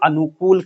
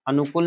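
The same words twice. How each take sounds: First: The last vowel is long. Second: The last vowel is short. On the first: The speaker calls it right. "छोटा ऊ की मात्रा बड़े ऊ की मात्रा में बदल जाएगा" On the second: The speaker calls it wrong. "अनुकूल नहीं"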